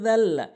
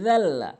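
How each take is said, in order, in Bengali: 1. প্রথম ধ্বনিটি জিভ দাঁতের সঙ্গে লাগিয়ে বলা হয়। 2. প্রথম ধ্বনিটি জিভ দাঁতের সঙ্গে লাগিয়ে বলা হয়।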